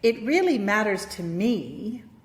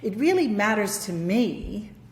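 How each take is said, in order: First: The word me carries the stress. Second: The word me carries the stress.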